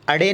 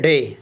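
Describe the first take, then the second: First: A vowel comes before the consonant. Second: The word begins directly with the consonant. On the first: The speaker calls it wrong. "अड़े नहीं" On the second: The speaker calls it right. "बल्कि डे"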